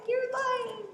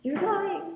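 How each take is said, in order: First: Strained screech. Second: Accusing cry. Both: Retold or imitated. Voicing Mia accusing the coven.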